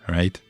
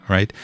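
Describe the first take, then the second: The two takes are said the same way.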